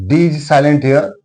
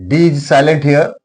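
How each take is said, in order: No difference in how they are said.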